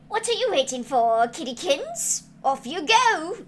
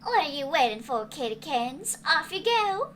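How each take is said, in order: First: It is read in a Stewie Griffin impression. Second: It is read in the character's usual voice.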